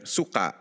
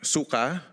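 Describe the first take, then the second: First: The final vowel is cut off by a catch. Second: The final vowel ends smoothly without a catch. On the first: It means vinegar. "for vinegar. So sort of that a uh, sound at the end of the suka" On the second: It means vomit. "for vomit"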